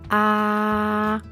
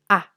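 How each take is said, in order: First: The pitch stays level and smooth. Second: The vowel is short and quick. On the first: "tono horizontal y su pronunciación es suave y recta" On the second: "corto y rápido"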